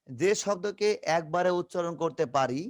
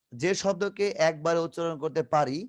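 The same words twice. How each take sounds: The two takes are said the same way.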